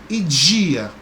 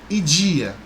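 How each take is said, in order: Both takes have the same delivery.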